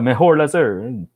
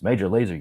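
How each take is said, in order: First: The first word starts with an H sound. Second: The first word starts with a J sound. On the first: The speaker calls it wrong. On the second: The speaker calls it right.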